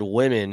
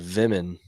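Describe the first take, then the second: First: The word begins with a W sound. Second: The word begins with a V sound.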